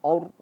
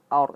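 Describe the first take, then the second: First: The vowel is thick, with rounded lips. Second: The vowel is thin, with unrounded lips. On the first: The speaker calls it wrong. "Jangan sampai a-nya ikut tebal ... monyong aur. Ha, salah" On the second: The speaker calls it right. "A tipis"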